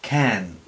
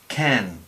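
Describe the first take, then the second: First: The k has a puff of air after it. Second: The same.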